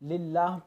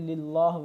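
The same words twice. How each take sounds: First: The L is pronounced thin and light. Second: The L is pronounced thick and heavy. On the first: The speaker calls it right. "इस लाम को बारीक पढ़ना है" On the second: The speaker calls it wrong. "न कि"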